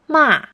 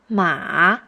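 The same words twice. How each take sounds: First: It is said with the fourth tone. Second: It is said with the third tone.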